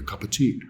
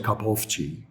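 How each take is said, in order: First: The word 'of' is reduced to a schwa. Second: The word 'of' is said with a full vowel. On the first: The speaker calls it right. "examples of weak forms" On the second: The speaker calls it wrong. "We don't say cup of tea uh, in natural conversation"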